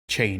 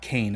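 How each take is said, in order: First: The word begins with a ch sound. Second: The word begins with a k sound. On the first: The speaker calls it right. "chain, not cane, it's actually chain" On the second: The speaker calls it wrong. "not cane"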